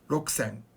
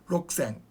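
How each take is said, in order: First: The u sound after k is dropped. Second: The same.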